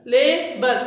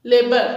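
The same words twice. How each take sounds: First: लेबर pulled apart, la-bour; split into syllables. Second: Said in the usual way. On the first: Shown as a demonstration. Teacher showing the two divisions of लेबर, syllable by syllable. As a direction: put a gap inside लेबर after la. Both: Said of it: "two syllable division में आएगा".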